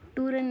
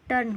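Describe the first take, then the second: First: The vowel is a long 'oo' before r. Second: The vowel is a short 'er' before r. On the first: The speaker calls it wrong. "टूरन नहीं होता है" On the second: The speaker calls it right. "टर्न होता है"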